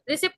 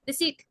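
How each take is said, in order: First: A p sound is pronounced before the t. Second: The p sound is silent. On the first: The speaker calls it wrong. "रिसिप्ट नहीं" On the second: The speaker calls it right. "री का sound तो quickly and सीट is थोड़ा heavy"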